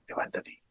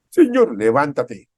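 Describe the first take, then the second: First: Soft breathy whisper of God's word; whispered command. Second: Loud, slow order to rise; loud command. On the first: Preacher voices God whispering to the congregation. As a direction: whisper it like God speaking softly. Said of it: "Y Dios te dice esta mañana". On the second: Preacher thunders God's order to the congregation. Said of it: "Es una orden". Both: Acted.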